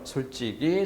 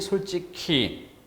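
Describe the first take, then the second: First: The last syllable sounds like plain 'gi'. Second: The last syllable sounds like aspirated 'ki'. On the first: "이로 소리 나는 경우" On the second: "히로 소리 나는 경우"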